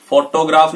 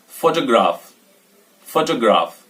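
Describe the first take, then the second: First: फोटोग्राफ spelled out with two full O sounds, "fo-to-graf"; wrong full-vowel version. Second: फोटोग्राफ run together as "fotuh-graaf", falling at the end; फोटोग्राफ with a reduced middle vowel; correct model pronunciation. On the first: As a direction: say फोटोग्राफ evenly as "foh-toh-graf". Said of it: "फोटोग्राफ नहीं बोलेंगे". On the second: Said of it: "इसको बोलेंगे फोटोग्राफ". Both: Shown as a demonstration.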